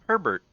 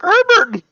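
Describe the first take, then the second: First: The name is said in a less squeaky voice. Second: The name is squeaked out in a weird voice. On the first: This is how it was meant to sound. "I just wanted it to be like Herbert" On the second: This is how it actually came out. "it came out a lot weirder than I had anticipated"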